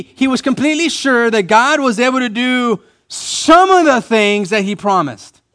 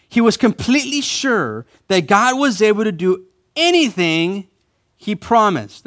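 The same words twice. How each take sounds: First: Exaggerated high, loud emphasis on some; stress on some. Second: Anything set off and raised high, pause after; anything lifted high, then land he promised; stress on anything. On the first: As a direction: hammer the wrong word some, high and loud. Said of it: "That's not what it says". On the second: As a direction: punch the word anything with preacher's conviction. True verse set against altered versions. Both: Shown as a demonstration.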